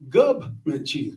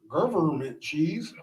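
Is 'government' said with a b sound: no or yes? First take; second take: yes; no. First: Government is said with a b sound. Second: Government is said without a b sound. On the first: The speaker calls it right. "with a B" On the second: The speaker calls it wrong. "just know we low key want to stab you"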